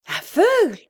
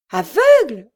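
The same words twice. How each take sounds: First: High, anguished cry of disbelief; a torn, piercing cry of horror; heart-rending cry. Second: Louder, choked and breaking; a stunned mother's broken echo. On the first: Sister hearing the terrible news, heart-rending cry. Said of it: "s'écria Henriette d'une voix déchirante". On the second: Mother overhearing at the door, broken voice. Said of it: "répéta d'une voix brisée". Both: A narrator's reading.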